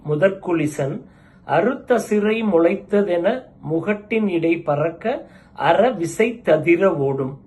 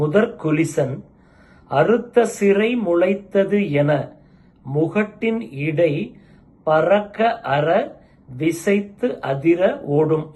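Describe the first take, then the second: First: The words are read joined into flowing units. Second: The words are read as separate units. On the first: "இதை எப்படி சேர்ந்து படிக்கலாம் அப்படின்னா" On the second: "இதுதான் செய்யுள்"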